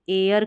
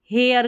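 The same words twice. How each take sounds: First: एयर starting straight on the vowel, like "air"; silent H. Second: हेयर with the first h sounded; H pronounced. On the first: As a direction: drop the h entirely in एयर. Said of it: "एच जो है इसमें silent है". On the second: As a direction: voice the h at the start of हेयर. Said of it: "इसको एयर करके पढ़ेंगे". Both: Shown as a demonstration.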